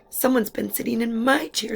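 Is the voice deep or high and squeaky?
high squeaky. It is squeaked in a high Baby Bear voice.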